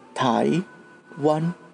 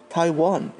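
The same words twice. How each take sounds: First: It is said with Mandarin tones on each syllable. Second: It is said with English intonation, without Mandarin tones. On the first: This is how locals say the name. "When we say it, we say Taiwan" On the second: This is how outsiders say the name. "Taiwan is how you say it"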